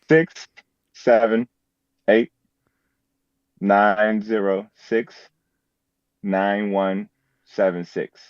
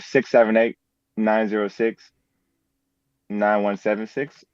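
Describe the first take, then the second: First: The number is said slowly and deliberately. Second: The number is said at normal speed.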